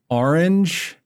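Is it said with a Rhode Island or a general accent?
Rhode Island. It is said in a Rhode Island accent.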